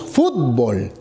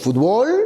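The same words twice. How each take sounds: First: The stress is on the first syllable. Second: The stress is on the last syllable. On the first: This is how the speaker's own region says it. "Nosotros decimos fútbol, para nosotros es grave" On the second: This is how it is said in Mexico. "como un mexicano dice fútbol, ... porque es aguda"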